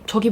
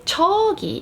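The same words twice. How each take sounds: First: The word is said at normal length. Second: The first syllable is drawn out long. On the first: The person is fairly close. "it's probably relatively close" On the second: The person is quite far away. "it means it's pretty far"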